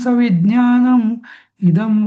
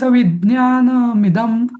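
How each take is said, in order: First: The two words are said separately with a break. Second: The two words are joined into one smooth word. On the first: The speaker calls it wrong. "तर तो शब्द तोडला" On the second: The speaker calls it right. "असं असं म्हणा ना"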